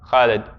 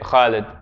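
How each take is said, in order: No difference in how they are said.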